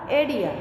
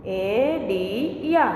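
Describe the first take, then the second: First: एडिया said as one smooth word; teacher blending the syllables into one word; blended whole word. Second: Drawn out slowly, split into parts: एडी या; teacher breaking एडी या into syllables. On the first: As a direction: join the parts into एडिया. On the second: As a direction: sound out एडी या piece by piece, slowly. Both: Shown as a demonstration. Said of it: "समझ में आया ना बच्चों".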